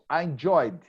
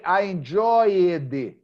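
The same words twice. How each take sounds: First: The ending is a plain D sound, enjoyd. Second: The ending is an extra syllable, enjoy-ed. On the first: The speaker calls it right. "It's only D" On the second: The speaker calls it wrong. "you don't say I enjoyed"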